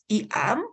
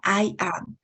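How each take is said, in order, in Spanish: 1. La palabra I se pronuncia con la vocal ee. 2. La palabra I se pronuncia con la vocal eye. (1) "siempre pronuncio esto como y"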